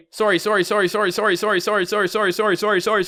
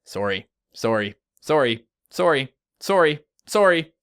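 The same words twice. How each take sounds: First: "sorry" repeated rapidly on one high pitch, like a loop; rapid-fire sorries. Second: "sorry" said one at a time with gaps, building in pitch and volume; separated sorries. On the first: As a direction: rattle off "sorry" nonstop, high and even. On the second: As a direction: space out each "sorry", rising step by step. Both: Shown as a demonstration. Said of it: "listen to you say sorry all day".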